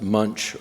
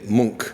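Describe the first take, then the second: First: The name is said with an anglicized pronunciation. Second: The name is said with the Norwegian pronunciation. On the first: The speaker calls it wrong. "I had thought that this artist's name was pronounced Munch" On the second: The speaker calls it right. "but the Norwegians say Munch"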